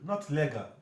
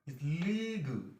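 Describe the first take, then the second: First: The first vowel is short. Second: The first vowel is a long e. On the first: The speaker calls it wrong. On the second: The speaker calls it right.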